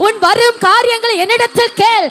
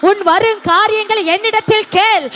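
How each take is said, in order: Both takes have the same delivery.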